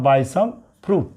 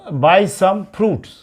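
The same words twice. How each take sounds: First: Slow reading of "fruit" with no final s; teacher says "fruit" plainly, without the s; corrected singular fruit. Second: Slow reading of "buy some fruits" with the final s sounded; teacher reads "fruits" with the s clearly heard; wrong plural fruits. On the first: Teacher giving the students the corrected sentence, slowly. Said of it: "क्या होगा?". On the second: Teacher reading out the wrong sentence to the students, slowly. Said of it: "फ्रूट्स नहीं". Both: Shown as a demonstration.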